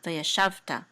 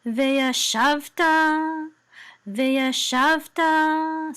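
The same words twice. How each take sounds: First: Said in the usual way. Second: Slow, high sung cantillation; high liturgical chanting, drawn out; chanted trope. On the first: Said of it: "that's how you say this word". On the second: Shown as a demonstration. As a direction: chant each syllable on held notes. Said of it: "So this is veya shavta".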